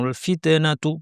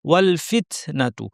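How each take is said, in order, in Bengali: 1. t-এর পরে গলা থেকে একটা দোলার মতো আওয়াজ হয়। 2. t ছাড়ার সময় বাতাসের স্পষ্ট ফুঁ বের হয়। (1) "গলা থেকে আওয়াজ করেন। ... কলকলার মতো আওয়াজ করেন" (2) "সঠিকটা হবে"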